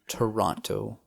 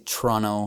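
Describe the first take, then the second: First: It is said carefully, with every sound. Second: It is said in a casual, reduced way. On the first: This is the spelled-out pronunciation locals avoid. "instead of pronouncing it Toronto" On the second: This is how locals actually say it. "we say Toronto"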